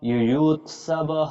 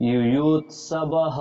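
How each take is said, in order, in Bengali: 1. শব্দটি y ধ্বনি দিয়ে শুরু হয়। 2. শব্দটি y ধ্বনি দিয়ে শুরু হয়।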